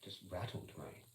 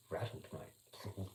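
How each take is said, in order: First: Said in the usual way. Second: Slow, teasing "Rattled, mate"; drawn-out rattled. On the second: Shown as a demonstration. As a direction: stretch it out very slowly, savouring.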